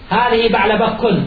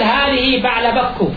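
First: The name ends with an added n sound. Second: The name ends without an added n sound. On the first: The speaker calls it wrong. "ولا تقول هذه بعل بك" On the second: The speaker calls it right. "تقول هذه بعل بك"

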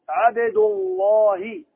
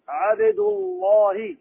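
Both takes have the same delivery.

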